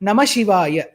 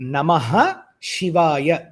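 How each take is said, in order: First: The words run together without the 'h' sound. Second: A breathy 'h' sound separates the two words. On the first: The speaker calls it wrong. "We should not chant it as Namashivaya" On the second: The speaker calls it right. "For example"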